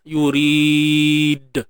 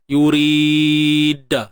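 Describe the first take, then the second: First: The final d is released with no vowel. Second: The final d is followed by an a vowel. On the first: The speaker calls it right. "Pastikan natural je" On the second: The speaker calls it wrong. "Baris atas contohnya"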